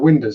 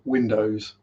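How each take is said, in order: First: The word is said loosely, not clearly enunciated. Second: The word is said carefully, with every sound enunciated. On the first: The speaker calls it wrong. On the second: The speaker calls it right.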